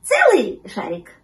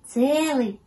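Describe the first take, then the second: First: Slow, loud, lightly voiced pup question; hopeful little pup; puppy checking. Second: Raised, drawn-out kitten answer; lightly voiced little cat; confirming kitten. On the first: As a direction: ask eagerly, leaning on the first word. Puppy asks, kitten confirms. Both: A narrator's reading.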